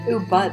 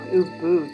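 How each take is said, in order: First: The word ends sounding like bud. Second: The word ends sounding like bood. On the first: It sounds like a word for marijuana. The speaker calls it wrong. "Ubud is what you smoke" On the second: It names the town you travel to. The speaker calls it right. "Ubud is where you go"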